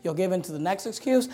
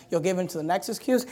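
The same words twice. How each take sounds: The two takes are said the same way.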